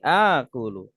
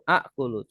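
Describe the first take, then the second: First: The first vowel is long, with no stop. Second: A glottal stop follows the first vowel. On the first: This is the softened everyday form. "Dilebur jadi panjang. Jadi akulu" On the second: This is the original underlying form. "Asalnya itu akulu"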